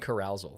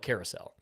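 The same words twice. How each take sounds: First: The word is pronounced in a garbled, odd way. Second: The word is pronounced in the standard way. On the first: The speaker calls it wrong. "I can never pronounce right the first time" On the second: The speaker calls it right. "Oh no"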